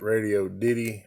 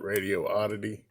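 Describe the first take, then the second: First: The name ends with the sound 'diddy'. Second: The name ends with the sound 'oddity'. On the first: "I pronounce it Radio Diddy" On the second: "Some people call it Radio Oddity"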